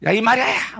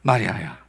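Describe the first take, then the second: First: High, brusque shout of a name; hammed-up sharp yell; mock rough call. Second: Low, gentle call by name; calm, loving low call; tender name-calling. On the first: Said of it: "뭐 이렇게 불렀을까?". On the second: Acted. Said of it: "여러분 어떻게 부르셨을까?".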